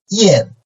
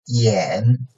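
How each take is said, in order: First: The pitch falls sharply from high to low. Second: The pitch dips low, then rises slightly.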